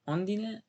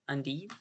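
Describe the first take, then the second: First: The name begins with an 'oh' vowel. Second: The name begins with an 'uh' vowel. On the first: This is how a Japanese song says it. "they pronounce it with an O sound" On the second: This is how the other person says it. "you said un undine"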